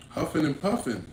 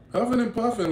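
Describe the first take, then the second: First: Said in the usual way. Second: "Huffing and puffing" pitched much higher and louder; emphatic repeat. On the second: Retold or imitated. Describing the angry stranger, repeating "Huffing and puffing" much higher and louder. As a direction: lean hard into "Huffing and puffing".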